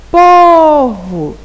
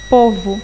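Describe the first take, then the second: First: Povo with a long, high, loud PO; stress on first syllable. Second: Said in the usual way. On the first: Shown as a demonstration. Teacher showing pupils the tonic syllable, PO in Povo loudly stretched. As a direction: belt out and hold the first syllable of Povo, then drop. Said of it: "pronunciamos com maior intensidade". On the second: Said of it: "Por exemplo".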